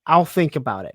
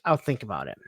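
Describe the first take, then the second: First: Said in the usual way. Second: Softer, shrugging noncommittal reply; a mildly quieter brush-off read. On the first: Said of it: "Not even, "Yes, I will." Just". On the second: Retold or imitated. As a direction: let it drop off softly, dismissive. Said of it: "Just, "I'll think about it".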